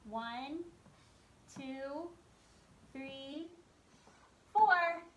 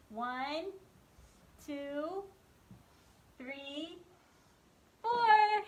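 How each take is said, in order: First: Put-on teaching a child to count. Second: Slow count-along with a big loud four; teaching a child to count. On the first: Counting legs for kids. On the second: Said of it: "Can you count with the, me". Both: Shown as a demonstration.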